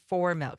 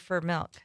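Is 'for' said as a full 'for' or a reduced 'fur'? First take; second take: full for; reduced fur. First: The word 'for' is said in full. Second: The word 'for' is reduced to 'fur'.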